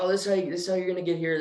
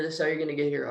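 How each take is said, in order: First: Quick, higher, rattled-off directions; fast directions. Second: Said in the usual way. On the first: Retold or imitated. Bartender hurrying directions to Marius, fast and higher. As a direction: rush the directions out.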